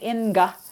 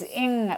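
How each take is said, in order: First: The nasal is followed by a released g sound. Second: The word ends on the nasal, no g sound. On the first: The speaker calls it wrong. "You don't say inga" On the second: The speaker calls it right. "It's ing, which is what we call a velar nasal"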